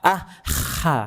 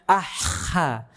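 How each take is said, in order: First: The middle consonant is a rough, scraping kh. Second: The middle consonant is a rough, scraping kh.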